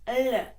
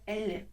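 First: The L sound is slightly harder. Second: The L sound is softer. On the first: The speaker calls it right. "Це правильний звук" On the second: The speaker calls it wrong. "неправильно буде Л"

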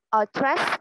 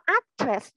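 First: The stress is on the second syllable. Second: The stress is on the first syllable. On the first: The speaker calls it right. "Âm tiết thứ hai được nhắn đó" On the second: The speaker calls it wrong. "Không có address nha"

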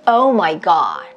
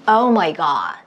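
First: It is said relaxed, carried easily on the breath. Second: It is said relaxed, carried easily on the breath.

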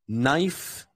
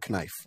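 First: The word starts with an n sound. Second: The word starts with a k sound. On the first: The speaker calls it right. "It's always pronounced just as n. The K is silent" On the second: The speaker calls it wrong. "never knife"

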